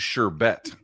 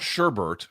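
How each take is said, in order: First: No extra sound is added to the word. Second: An extra sound is added to the word. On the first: The speaker calls it right. "It is sherbet" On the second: The speaker calls it wrong. "It is not sherbet. Sherbet is not a word"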